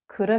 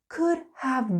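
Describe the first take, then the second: First: Have is reduced to a quick uh sound. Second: Have is pronounced clearly as a full word. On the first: "when we're speaking quickly, we like to smush things together" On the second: "when you learn something um, in a lesson, it's very clear"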